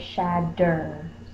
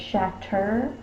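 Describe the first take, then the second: First: The middle consonant is a soft D sound. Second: The middle consonant is a crisp T sound. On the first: "A lot of times we say shadder. So we change it to the D sound" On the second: "we don't say shatter"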